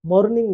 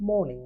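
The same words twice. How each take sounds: First: মর্নিং with the r sounded; R pronounced. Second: মর্নিং with no r; silent R. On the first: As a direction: say মর্নিং with r before the n. (র উচ্চারণ করে মর্নিং) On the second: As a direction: say মর্নিং as "mo-ning". (র বাদ দিয়ে মর্নিং) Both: Shown as a demonstration. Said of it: "আর এর উচ্চারণ হচ্ছে না".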